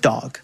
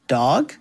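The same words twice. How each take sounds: First: It is said with confidence. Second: It is said with little confidence.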